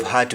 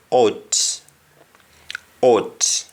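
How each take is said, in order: First: "heart" meaning hurt, with H and open vowel; English hurt. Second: "ought" for hurt: no H, vowel as O; Jamaican hurt. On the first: Teacher contrasting English hurt with Jamaican, H sounded. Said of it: "instead of heart we say". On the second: Teacher showing Jamaican hurt, H dropped. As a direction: drop the H and say U as O, "ought". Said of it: "we say ought". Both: Shown as a demonstration.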